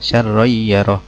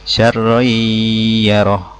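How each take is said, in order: First: It is read with no nasal hum. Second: It is read with a long nasal hum. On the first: The speaker calls it wrong. "itu salah" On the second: The speaker calls it right. "harus agak lama dengungnya"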